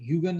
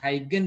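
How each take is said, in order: First: The name begins with a 'hew' sound. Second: The name begins with a 'high' sound. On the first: "इसका सही pronunciation तो है ना वैसे ह्यूगन ह्यूगन ही है" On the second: "मैं अपने प्रोफेसर अपने टीचर से हाइगन ही सुना है"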